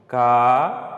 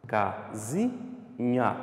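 First: "casinha" with very long pauses between syllables; sílaba por sílaba. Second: "Casinha" softer, in three short-spaced syllables; sílaba por sílaba. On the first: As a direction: isolate each syllable of "casinha", first one loud. ("casinha" bem pausado, ca, zi, nha) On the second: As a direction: recap "Casinha" slowly, syllables briefly separated. ("Casinha" mais baixo, ca, zi, nha em pausas curtas) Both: Shown as a demonstration. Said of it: "Você fala ela devagar, sílaba por sílaba".

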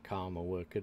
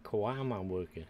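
First: "karma worker" with KARMA in two syllables; misread pronunciation. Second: "Kawama worker" with a w inside KAWAMA; corrected pronunciation. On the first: Player reading out a misread creature name, pronounced "karma worker". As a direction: say "karma" like the word for fate, no w. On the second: Player correcting a misread creature name, pronounced "Kawama worker". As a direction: say "Kawama" as ka-WA-ma, not karma. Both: Real, not acted. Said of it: "I thought that said karma worker".

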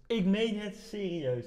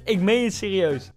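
First: Slow, much softer; quiet, drawn-out insistence; hushed earnest repeat. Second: Said in the usual way. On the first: Real, not acted. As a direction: drop the volume and stretch it out in earnest.

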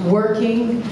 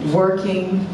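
No difference in how they are said.

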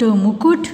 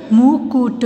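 First: Said in the usual way. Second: मुकुट slow, in separate syllables. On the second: Shown as a demonstration. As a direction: sound out मुकुट. (मुकुट को तोड़-तोड़ कर) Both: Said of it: "फिर ये सारे बोलने".

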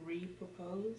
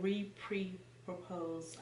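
First: Re-propose without the extra "pre"; suggested wording. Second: Re-pre-propose with an extra "pre"; quoted mispronunciation. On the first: Shown as a demonstration. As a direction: softly offer re-propose as the simpler word. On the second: Retold or imitated. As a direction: quietly repeat re-pre-propose, every part separate. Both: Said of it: "I would just say".

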